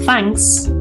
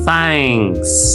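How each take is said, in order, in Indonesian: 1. Kata itu diucapkan cepat dan singkat. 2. Kata itu diucapkan lambat dan ditarik panjang. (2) "Kalau mau pelan"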